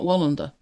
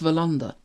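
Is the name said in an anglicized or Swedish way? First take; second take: anglicized; Swedish. First: The name is said in an anglicized way. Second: The name is said in a Swedish way. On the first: The speaker calls it wrong. "over here, people say Wallander. Mm. It's not Wallander" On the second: The speaker calls it right. "It's Wallander. But you sound an idiot saying it right"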